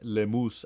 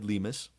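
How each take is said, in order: First: The name is said with Spanish sounds. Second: The name is said with English sounds.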